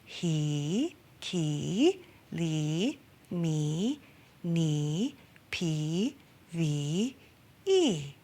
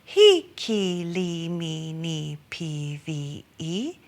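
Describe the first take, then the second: First: Each vowel is long. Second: Each vowel is short.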